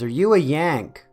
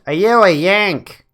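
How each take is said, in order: First: It is said in the narrator's ordinary voice. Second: It is said in an imitated, mimicked accent.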